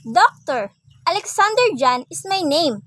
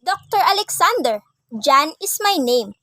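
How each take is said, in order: First: "Doctor" alone, then "Alexander John" joined; pause after DOCTOR. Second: "Doctor Alexander" joined, break before "John"; pause after ALEXANDER. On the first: Teacher addressing a doctor, pausing before "Alexander John". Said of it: "he said to the doctor". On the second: Teacher addressing Doctor Alexander, pausing before "John". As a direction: run "Doctor Alexander" together, pause, then "John is my name". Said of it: "Doctor Alexander is her doctor". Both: Shown as a demonstration.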